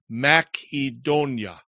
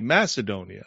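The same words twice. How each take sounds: First: The c is pronounced as a hard k. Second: The c is pronounced as a soft s. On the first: "is a hard C in Greek. So it would be said Macedonia" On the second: "There are others that say Macedonia"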